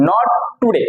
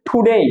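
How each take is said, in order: First: টুডে with unaspirated t, "tu-de"; wrong pronunciation. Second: টুডে as "thu-DEY"; corrected pronunciation. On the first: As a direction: say টুডে short with a plain t. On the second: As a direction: say টুডে with a puff on t and a full "ey". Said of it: "এটা হচ্ছে টুডে". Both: Shown as a demonstration.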